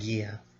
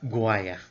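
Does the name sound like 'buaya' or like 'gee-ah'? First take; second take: gee-ah; buaya. First: The name sounds like 'gee-ah', not rhyming with buaya. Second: The name sounds like 'gwah-yah', rhyming with buaya. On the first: This is how the name is actually pronounced. The speaker calls it right. "rather than" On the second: Someone else mispronounced the name this way. The speaker calls it wrong. "she thought that that was pronounced it was pronounced that way"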